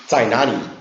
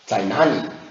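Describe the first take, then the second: First: It is said in a Guiyang accent. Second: It is said in a Guiyang accent.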